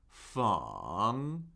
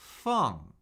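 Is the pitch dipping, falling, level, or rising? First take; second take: dipping; falling. First: The pitch dips low, then rises. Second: The pitch falls steadily from high.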